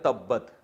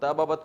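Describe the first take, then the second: First: The b sounds merge into one doubled b. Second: Two separate b sounds with a vowel between. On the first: "ताबाबत को बना दिया तब्बत" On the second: "ताबाबत दो हर्फ एक जैसे आ गए"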